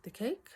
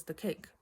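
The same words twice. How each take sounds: First: Rising, higher puzzled question on cake; puzzled echo. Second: Said in the usual way. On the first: Retold or imitated. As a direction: echo it back as a confused question. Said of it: "And I'm like". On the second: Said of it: "And he goes".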